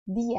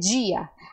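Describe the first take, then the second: First: The first consonant is a soft plain D. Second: The first consonant sounds like 'dj'. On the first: The speaker calls it right. "A letra D no espanhol ela é sempre suave" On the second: The speaker calls it wrong. "você tem que ter cuidado para não dizer dia"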